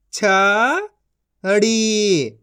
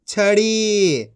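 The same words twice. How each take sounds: First: छड़ी split into छ, pause, ड़ी; syllable by syllable. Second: छड़ी as one joined word; long छड़ी, falling at the end; blended reading. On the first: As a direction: sound out छड़ी in two syllables. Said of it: "एक एक अक्षर का उच्चारण करके". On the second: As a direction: join छ and ड़ी. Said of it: "इनको आपस मिला के पढ़". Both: Shown as a demonstration.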